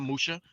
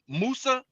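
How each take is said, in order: First: The middle consonant is an sh sound. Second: The middle consonant is a plain s sound. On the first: The speaker calls it wrong. "not Musha" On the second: The speaker calls it right. "When we talk about Musa"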